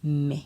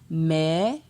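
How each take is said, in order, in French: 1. Il est prononcé sur un ton bas. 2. Il est prononcé sur un ton montant. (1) "Avec un ton bas" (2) "Ton montant"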